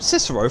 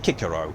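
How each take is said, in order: First: The name begins with a soft S sound. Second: The name begins with a hard K sound. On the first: The speaker calls it wrong. "incorrectly pronounced" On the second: The speaker calls it right. "It should be Kikero"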